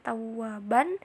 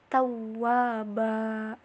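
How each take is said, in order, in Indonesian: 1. Kata ini berakhir dengan bunyi n. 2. Kata ini berakhir dengan vokal a panjang. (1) "bukan dibacanya tawwaban" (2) "tetapi tawwaba"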